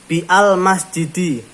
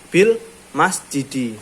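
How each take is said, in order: First: The 'a' of 'al' is pronounced separately. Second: The 'a' of 'al' is dropped, linked as 'bil'. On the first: The speaker calls it wrong. "Bisa aja kamu ngomong, ngomong apa bacanya bi al masjidi" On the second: The speaker calls it right. "ketika dia bersambung dengan kalimat yang lain, dia tidak bisa diucap"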